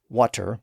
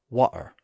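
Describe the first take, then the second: First: The middle consonant is a clear T sound. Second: The middle consonant is a glottal stop.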